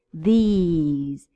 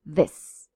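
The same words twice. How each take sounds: First: These with a long stretched ee, lips spread; long ee vowel in These. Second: This with a short, clipped ɪ; short vowel in This. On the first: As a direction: smile and hold the ee in These. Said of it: "spread your lips and smile". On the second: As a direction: say This with a quick short i sound. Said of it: "Whereas these has a long I". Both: Shown as a demonstration.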